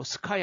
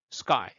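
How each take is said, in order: First: SKY with a puffed K, Korean-style "seu-kai"; wrong pronunciation. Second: SKY with a tight "g"-like K; hard unaspirated K. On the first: English teacher showing what to avoid, wrong pronunciation. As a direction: say SKY with an aspirated K. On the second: English teacher modelling breath held back, hard unaspirated K. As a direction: say SKY as "sgai", no puff. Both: Shown as a demonstration. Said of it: "sky 하지 마시고".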